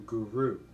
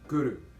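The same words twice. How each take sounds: First: The R is said without a roll. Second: The R is a tongue tap, rolled slightly. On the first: The speaker calls it wrong. "opposed to Guru" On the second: The speaker calls it right. "hitting the tongue behind the front teeth... you roll the R a bit. So it's Guru"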